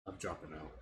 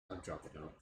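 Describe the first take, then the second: No difference in how they are said.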